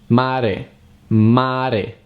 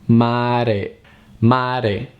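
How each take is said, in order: The two takes are said the same way.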